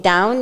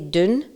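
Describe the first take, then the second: First: It is said with the standard vowel. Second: It is said with the local dialect vowel. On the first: "you wouldn't say" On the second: "you would say dun"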